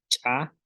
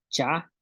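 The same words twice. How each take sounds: First: "cha" with an ejective ch; glottalised CH. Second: Said in the usual way. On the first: Shown as a demonstration. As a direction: pop the ch of "cha", tiny silence, then vowel. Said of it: "consonantes que tienen glotal". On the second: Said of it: "que no tienen glotal".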